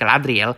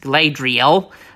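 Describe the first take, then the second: First: The name is pronounced the author's way. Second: The name is not pronounced the author's way. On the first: "the way Tolkien would pronounce it, like Galadriel" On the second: "I refuse to call her. I mean, to pronounce her name the way Tolkien would pronounce it"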